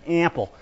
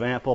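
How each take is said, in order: First: "ample" with a mild Long Island vowel, imitating Whitman; Long Island accent. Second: Said in the usual way. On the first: Lecturer mimics Whitman's Long Island "ample" for the class. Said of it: "picked up the Long Island accent". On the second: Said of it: "He says ample instead of ample".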